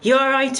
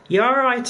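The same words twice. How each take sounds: First: It is spoken in a Liverpool accent. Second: It is spoken in a London accent. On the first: The speaker calls it right. "I can do a Liverpool one now" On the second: The speaker calls it wrong. "that typical London one"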